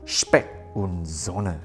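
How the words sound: The name is said with German sounds.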